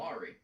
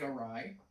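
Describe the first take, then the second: First: It is said as two syllables ending in 'ree'. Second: It is said as two syllables ending in 'rye'. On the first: The speaker calls it wrong. "A W R Y looks like Ari" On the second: The speaker calls it right. "that's pronounced awry"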